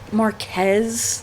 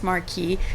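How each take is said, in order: First: The word is pronounced the English way. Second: The word is pronounced the French way. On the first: The speaker calls it wrong. "you're supposed to pronounce it Mar- Marquez in English, but that sounds terrible" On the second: The speaker calls it right. "just Marquis in French because it sounds better"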